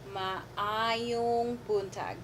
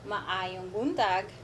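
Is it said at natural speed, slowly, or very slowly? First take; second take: very slowly; slowly. First: It is said very slowly, syllable by syllable. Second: It is said slowly, word by word.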